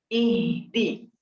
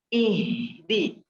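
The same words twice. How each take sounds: No difference in how they are said.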